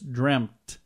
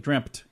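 First: No p sound is heard before the t. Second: A p sound is heard before the t. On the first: "But it's dreamt" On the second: "there's no P in there, but I pronounce it that way"

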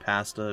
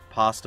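First: Pasta is said with a Canadian pronunciation. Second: Pasta is said with a non-Canadian pronunciation.

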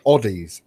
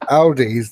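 First: It uses a Scottish pronunciation. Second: It uses the usual English pronunciation.

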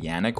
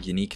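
First: The name is said like 'yan-ick'. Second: The name is said like 'yah-neek'. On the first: "when it's clearly Yannick" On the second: "why do I keep saying Yannick"

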